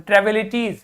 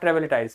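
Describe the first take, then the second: First: The last syllable is said as 'teez'. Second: The last syllable is said as 'tize'. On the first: The speaker calls it right. "तो ट्रेविलिटीज" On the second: The speaker calls it wrong. "Not ट्रेविलिटाइज"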